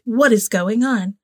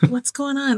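First: It is said stiffly, imitating Bella's flat delivery. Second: It is said in a natural, casual way.

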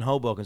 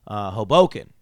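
First: The word is said smoothly as one unit. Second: The word is split into separate syllable chunks. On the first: The speaker calls it right. "It's just one word" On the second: The speaker calls it wrong. "you're making it like three words"

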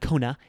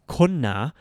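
First: The n sound is short and rushed. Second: The n sound is held long. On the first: The speaker calls it wrong. "it's not kona" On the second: The speaker calls it right. "it's konna"

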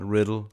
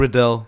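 First: The name sounds like the word riddle. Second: The name ends in a stressed 'dell' sound. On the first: The speaker calls it wrong. "Vi fik slagtet hans navn lidt sidst, og bare Riddle, som det staves" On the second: The speaker calls it right. "Men det er ikke sådan, det er Riddell"

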